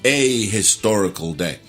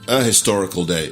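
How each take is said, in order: First: It is said in a dramatic, theatrical way. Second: It is said plainly, with a clear H. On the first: "quand ils veulent être théâtral" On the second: "ils prononcent le H clairement"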